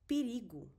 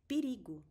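Both takes have the same delivery.

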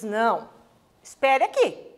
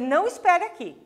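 First: There is a pause after "não". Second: It is said in one go without a pause.

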